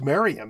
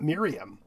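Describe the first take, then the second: First: The first syllable sounds like 'mare'. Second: The first syllable sounds like 'mere'. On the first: The speaker calls it right. "which indicates it's pronounced Merriam" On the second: The speaker calls it wrong. "not Miriam"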